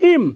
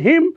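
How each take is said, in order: First: The word starts without an h sound. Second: The word starts with an h sound. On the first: "হিমকে আপনি হিমকে চাইলে আপনি উচ্চারণ করতে পারবেন ইম" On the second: "হিমের উচ্চারণ হিম"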